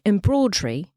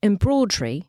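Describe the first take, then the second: First: It is said with a British accent. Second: The same.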